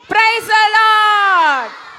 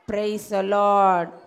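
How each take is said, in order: First: The phrase is said loudly. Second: The phrase is said quietly. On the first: The seeker is close to the ball. "அந்த அண்ணா கிட்ட வந்துட்டாங்களா" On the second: The seeker is far from the ball. "இவங்க தூரத்துல இருக்காங்க"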